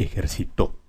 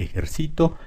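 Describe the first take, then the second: First: Ejercitó stressed ejerci-TÓ; stress on final TÓ. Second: Ejercito stressed ejer-CI-to. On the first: Teacher listing words that exist, stressed TÓ in ejercitó. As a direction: lean on the last syllable of ejercitó. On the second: Teacher listing words that exist, stressed CI in ejercito. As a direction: lean on CI in ejercito. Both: Shown as a demonstration. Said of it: "en todos los demás casos sí existe".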